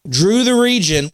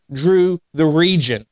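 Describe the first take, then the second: First: "Drew the region" said slower, higher and louder, leaning on each word; emphatic repeat. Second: Said in the usual way. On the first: Real, not acted. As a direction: repeat it with force to drive the point home.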